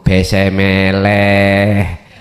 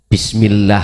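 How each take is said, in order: First: The vowels are flattened and the sounds are slurred. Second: The word is pronounced with precise Arabic sounds.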